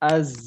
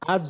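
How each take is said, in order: First: The final consonant sounds like 'z'. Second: The final consonant sounds like 'j'. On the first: The speaker calls it right. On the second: The speaker calls it wrong.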